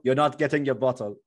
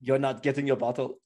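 First: Lightly put-on Jamaican accent; a hint of a Jamaican bouncer refusing. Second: Lightly put-on Jamaican accent, said again; a hint of Jamaican. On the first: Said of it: "what accent is that supposed to be". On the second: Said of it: "That was Jamaican".

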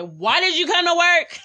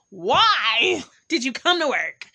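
First: High, loud mock disbelief; incredulous manager. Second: "Why" drawn out long and slow; stress on WHY. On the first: Manager to employee in pain at work, incredulous. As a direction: imitate a manager's loud, high-pitched scolding. Manager scolds her, retold. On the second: Retold or imitated. Manager to employee in pain, incredulous long "Why". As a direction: stretch out "Why", then finish the question. Manager's question repeated with emphasis.

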